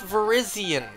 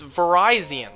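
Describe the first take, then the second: First: The name does not sound like 'Verizon'. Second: The name sounds like the brand 'Verizon'. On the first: The speaker calls it wrong. "It's not Verizian, folks" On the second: The speaker calls it right. "like Verizon Mobile"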